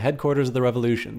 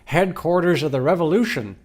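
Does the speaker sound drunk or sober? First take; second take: sober; drunk. First: It is said in a plain, sober voice. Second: It is said in a slurred, drunken voice.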